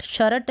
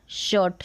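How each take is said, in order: First: "शर्ट" as "sha-rat", r fully sounded; full-r mispronunciation. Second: "शर्ट" as one syllable, "shuht"; half-r pronunciation. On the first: Teacher rejecting a reading, "शर्ट" with full r. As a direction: break "शर्ट" open with a full r. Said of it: "शर्ट नहीं". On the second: Teacher modelling the correct reading, "शर्ट" with half r. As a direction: say "शर्ट" with the r barely there. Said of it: "same ऐसे ही स्कर्ट". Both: Shown as a demonstration.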